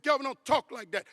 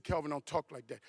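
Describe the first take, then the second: First: Higher, louder imitation of an upset wife; alarmed protest. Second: Said in the usual way. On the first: Wife stopping her husband's talk of a crash, alarmed protest. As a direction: cut in with a raised, scolding plea.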